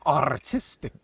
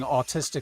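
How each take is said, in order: First: The R sound after the first vowel is pronounced. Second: The R sound after the first vowel is dropped. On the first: The speaker calls it right. "get a Latin speaking person, be like" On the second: The speaker calls it wrong. "commentators that are not British or Australian because they don't say the R"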